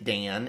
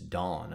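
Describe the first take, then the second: First: The vowel is like the 'a' in cat. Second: The vowel is like the 'aw' in dawn. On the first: The speaker calls it wrong. "this guy the other day from the Midwest" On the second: The speaker calls it right. "because it's Dawn, of course"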